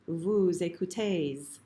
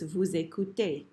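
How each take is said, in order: First: A final consonant sound is pronounced at the end. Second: No final consonant sound is pronounced at the end. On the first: The speaker calls it wrong. "it's not vous écoutez" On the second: The speaker calls it right. "It's just vous écoutez"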